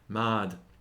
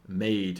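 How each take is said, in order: First: It is said with a Shakespearean-era vowel. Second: It is said with a modern English vowel. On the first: "in the uh, original pronunciation" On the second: "words that we would say nowadays are"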